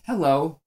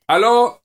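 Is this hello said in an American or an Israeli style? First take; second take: American; Israeli. First: Hello is said in an American style. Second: Hello is said in an Israeli style. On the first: "or Americans, hello" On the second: "In Israel, it's not like shalom. No, it's hello"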